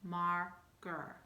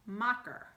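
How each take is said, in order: First: "marker" said properly with the ar sound; correct word. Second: "mocker" with a short open o sound; wrong vowel demo. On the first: Teacher giving the correct "marker" after the wrong one. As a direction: say "marker" the right way, ar vowel. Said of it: "So it would go". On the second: Teacher showing a child the mistaken "mocker". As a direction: say "mocker" like the wrong version of marker. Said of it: "This is a". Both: Shown as a demonstration.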